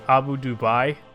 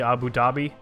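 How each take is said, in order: First: The second word is said like Dubai. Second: The second word is said like Dhabi. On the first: The speaker calls it wrong. "the biggest one was probably Abu Dubai" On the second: The speaker calls it right. "which is actually Abu Dhabi"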